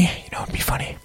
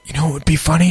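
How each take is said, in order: First: Hushed, voiceless whisper. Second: Said in the usual way. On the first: Pretend. Host floating a funny idea to listeners, whispered. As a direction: whisper it as if sharing a secret.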